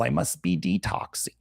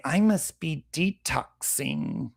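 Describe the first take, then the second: First: Softer mock voice rising at the end; sarcastic imitation with a questioning lift; mock whiny quote. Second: Slow, softer, drawn-out mock of a gullible person; sarcastic slow imitation of someone self-diagnosing; mock whiny quote. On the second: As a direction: drag it out like a clueless wellness fan. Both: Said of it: "and they say".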